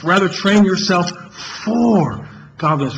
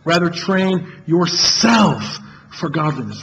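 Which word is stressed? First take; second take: for; yourself. First: The word "for" carries the main stress. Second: The word "yourself" carries the main stress.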